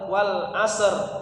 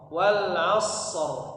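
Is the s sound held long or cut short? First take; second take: short; long. First: The s sound is cut short before r. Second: The s sound is held long before r. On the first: The speaker calls it wrong. "jangan langsung seperti apa namanya dikol-kolah, jangan wal asr" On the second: The speaker calls it right. "bukan asr tapi wal asr"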